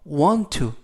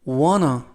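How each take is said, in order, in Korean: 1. 두 단어 모두 완전하고 따로따로 발음됩니다. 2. 두 단어는 함께 이어지고 줄어들어 발음됩니다. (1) "want to 또는" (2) "연음에 의해서"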